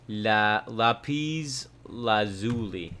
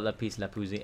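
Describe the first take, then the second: First: It is pronounced carefully, in the standard way. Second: It is pronounced in a casual, personal way. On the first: "I'm gonna try to actually pronounce it legit" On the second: "I call it lapis lazuli"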